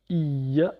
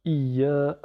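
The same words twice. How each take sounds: First: "iya" with doubled y and short a; "iya" cut short on the last vowel; short final a. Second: "Iya" with a long-held final a; "Iya" ending on a drawn-out aa; lengthened a. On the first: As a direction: say "iya" ending on a quick a. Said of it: "avec shadda et a". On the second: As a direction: stretch the last vowel of "Iya". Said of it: "Allongé par le alif". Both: Shown as a demonstration.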